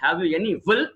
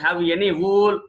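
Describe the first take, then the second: First: "wool" with a short u, rhyming with full; correct pronunciation demo. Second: "wool" with a long drawn-out oo; mispronounced wool, long oo; wrong pronunciation demo. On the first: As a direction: keep wool short, like "wull". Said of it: "not wool and full". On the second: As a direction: stretch the vowel in wool, "wooool". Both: Shown as a demonstration.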